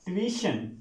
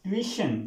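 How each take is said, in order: The two takes are said the same way.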